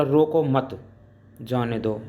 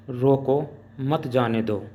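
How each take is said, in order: First: रोको मत said as one unit, then a break before जाने दो; pause after मत. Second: रोको said firmly on its own, then मत जाने दो together; group मत with जाने दो after a pause. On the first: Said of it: "इसका अर्थ है कि रोको मत, उसे जाने दो". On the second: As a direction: break right after रोको, slowly. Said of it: "इसका भाव है कि किसी व्यक्ति को आप रोकिए". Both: Shown as a demonstration.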